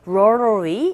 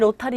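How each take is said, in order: First: It is said with English-style sounds. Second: It is said with Korean-style syllables. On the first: The speaker calls it right. "로타리가 아니라 rotary 이렇게 발음이 돼요" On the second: The speaker calls it wrong. "우리 보통 로타리 로타리 이렇게 발음하는데"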